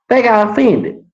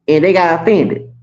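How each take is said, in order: First: "They got offended" pitched higher in disbelief; mocking disbelief at "They got offended"; incredulous repeat. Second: Said in the usual way. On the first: Real, not acted.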